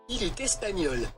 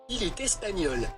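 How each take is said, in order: No difference in how they are said.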